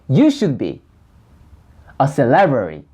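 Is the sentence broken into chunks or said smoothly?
chunked. The sentence is broken into separate chunks. "끊어서 연습을 합니다"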